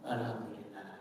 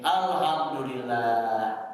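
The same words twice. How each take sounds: First: It is said very softly. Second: It is said loudly.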